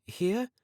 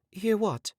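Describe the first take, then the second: First: Much higher, rising mock surprise; hammed-up innocent surprise; playing dumb. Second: Much higher, falling mock bafflement; hammed-up innocent confusion; feigned confusion. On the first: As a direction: pretend you have no idea what he means. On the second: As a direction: act puzzled to cover what she heard. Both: A narrator's reading. Girl plays dumb when questioned.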